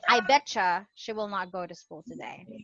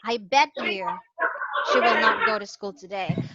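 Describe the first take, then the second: First: Bet and you blend into one word, betcha. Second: Bet and you are said as separate words. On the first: The speaker calls it right. "They say" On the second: The speaker calls it wrong. "They don't say"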